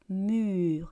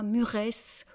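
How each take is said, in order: First: The word ends on r with silent es. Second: The word ends with an added -esse sound. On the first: The speaker calls it right. "Donc on répète encore une fois" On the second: The speaker calls it wrong. "on ne dit pas muresse"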